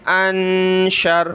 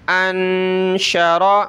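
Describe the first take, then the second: First: انشر said slowly, cut off on the final r; انشر with the ending vowel dropped; pausal stop. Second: انشرا said slowly with the final a sounded; انشرا with its ending vowel kept; full vowel ending. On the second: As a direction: let the last vowel ring out in انشرا. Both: Shown as a demonstration. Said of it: "وقفاً".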